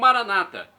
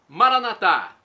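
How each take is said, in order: First: The stress is on the second-to-last syllable. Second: The stress is on the last syllable. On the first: This is the Protestant way of saying it. "com a tônica na penúltima sílaba" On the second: "Pronúncia católica com a tônica na última sílaba"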